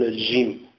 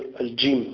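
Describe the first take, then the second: First: The jim is a fricative with the sound flowing. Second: The jim is a stop with the sound blocked. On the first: This is a colloquial dialect pronunciation. The speaker calls it wrong. "يقولون الجيم، يقول لك أج" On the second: This is the standard recitation pronunciation. The speaker calls it right. "في المغرب لا يقولون الجيم"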